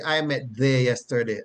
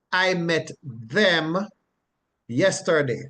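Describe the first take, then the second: First: Said in the usual way. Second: "them" drawn out slowly, then a pause; slow example sentence, dwelling on "them"; stress on THEM. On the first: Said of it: "You wouldn't say". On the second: Shown as a demonstration. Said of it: "And an example".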